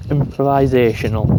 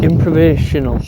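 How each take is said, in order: First: "Improvisational" said fully, every syllable im-pro-vi-sa-tion-al; careful full pronunciation. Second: "improvisational" with the "vi" syllable swallowed, slurred as improv-ational; slurred numb-mouth attempt. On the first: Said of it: "There, I said it". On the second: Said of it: "let's see if I can say it". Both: Real, not acted.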